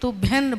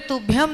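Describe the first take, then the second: First: The word ends with an n sound. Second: The word ends with an m sound. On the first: The speaker calls it right. "तुभ्यन बोलना चाहिए" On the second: The speaker calls it wrong. "तुभ्यम नहीं बोलना चाहिए"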